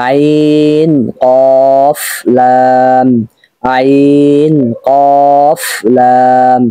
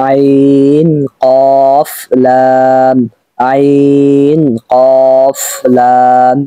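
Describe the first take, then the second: Both takes have the same delivery.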